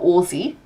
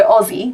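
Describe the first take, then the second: First: Aussie said with a hard s, ossie; Aussie with a sharp s. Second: Aussie said with a z sound, ozzie. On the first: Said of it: "we're Aussie". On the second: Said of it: "not Aussie". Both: Shown as a demonstration.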